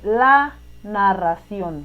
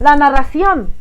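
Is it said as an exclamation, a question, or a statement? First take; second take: statement; exclamation. First: It is said in a plain, level statement tune. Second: It is said with an excited, exclaiming tune. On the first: Someone is simply stating something. "no están preguntando ni exclamando" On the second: Someone shows surprise or admiration. "si tiene signos de exclamación"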